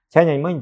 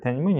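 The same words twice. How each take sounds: First: It is said with flat Russian-style sounds. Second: It is said with Chinese sounds and tones. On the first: The speaker calls it wrong. "Они начинают говорить таким образом" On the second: The speaker calls it right. "а по-китайски это тяньаньмэнь"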